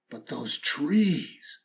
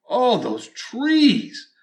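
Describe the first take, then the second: First: Soft and slow, almost to yourself; hushed longing. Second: Slow, higher and fuller, yearning; swelling longing. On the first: Storyteller softly remembering the trees, slow and hushed. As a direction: breathe the words out softly, slowly. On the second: Storyteller yearning aloud for the trees, higher and slow. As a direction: let the longing swell up high. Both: A narrator's reading.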